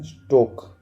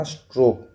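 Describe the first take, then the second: First: स्टोक said with no r, just stok; correct pronunciation. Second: स्ट्रोक said with an r after the t, the wrong way; wrong pronunciation. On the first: Teacher corrects students, saying स्टोक without the r. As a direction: give स्टोक clean, no r after the t. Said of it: "स्टोक बोलते हैं, स्ट्रोक नहीं". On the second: Teacher shows students the wrong word, said with the r. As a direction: say स्ट्रोक as the common mistake, with the r. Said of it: "स्ट्रोक नहीं". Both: Shown as a demonstration.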